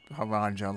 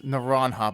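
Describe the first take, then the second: First: The name is said with English sounds. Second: The name is said with Spanish sounds. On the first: The speaker calls it wrong. "like I probably said a million times playing this game" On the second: The speaker calls it right. "because it's Spanish"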